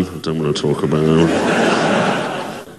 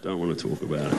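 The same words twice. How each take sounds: First: Low, slow, drawn-out grumble; sulky refusal. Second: Low, soft mock-sulky mumble; quiet sulk. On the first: Acted. Jesus back home after failing, low sulky drawl. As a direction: drag it out in a mock sulk. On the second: Jesus back home after failing, softly sulking. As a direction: trail it off under your breath. Sulky line repeated, smaller.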